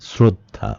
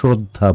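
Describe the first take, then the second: First: The first consonant is a plain s sound. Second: The first consonant is an sh sound. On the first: The speaker calls it right. "তালব্য স এর উচ্চারণ এস করছি" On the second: The speaker calls it wrong. "আমরা শ্রদ্ধা বলি না"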